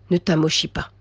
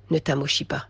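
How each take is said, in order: First: Said in the usual way. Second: "Ne t'amochis pas" again, lower and much softer; softly pressing the warning home; hushed repeat. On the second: Shown as a demonstration. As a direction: drop "Ne t'amochis pas" to an intimate near-whisper.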